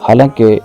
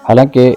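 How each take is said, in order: No difference in how they are said.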